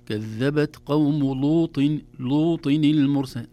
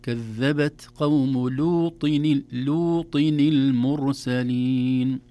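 First: "لوط" with a thick, dark ل, a recitation error; slow, loud recitation, thickening the ل of "لوط"; heavy ل in لوط. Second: "لوط" with a thin, clear ل before the heavy ط; slow, loud recitation keeping the ل of "لوط" light. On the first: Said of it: "نفخم اللام". ("لوط" بلام مفخمة) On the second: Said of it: "لكن نرقق اللام". ("لوط" بلام مرققة) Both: Shown as a demonstration.

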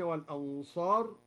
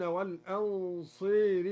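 First: Said in the usual way. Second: والأنصار read walenseri, the a leaning to e; imala on al-ansar. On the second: Shown as a demonstration. Teacher repeats the verse with al-Duri's imala. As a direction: lean the a of والأنصار towards e. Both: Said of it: "أمال الأنصار".

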